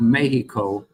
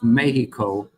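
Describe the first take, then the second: First: Mexico is said with a Mexican Spanish pronunciation. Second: The same.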